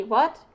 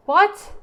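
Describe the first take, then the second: First: Said in the usual way. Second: Much higher, loud startled what; shocked what. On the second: Real, not acted. Player stunned by the game's answer, loud startled what. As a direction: shout it in disbelief at the screen.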